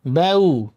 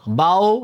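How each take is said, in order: First: "বাউ" as bae-u, closing on u; correct u ending. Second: "বাও" broad, closing on o; wrong o ending. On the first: Teacher correcting the mistake, "বাউ" with final u. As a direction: say "বাউ" with a thin vowel into a clear u. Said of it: "রস্য উর মতো করে". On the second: Teacher warning learners off it, "বাও" with final o. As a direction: say "বাও" as bao with an o glide. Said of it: "না কিন্তু". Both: Shown as a demonstration.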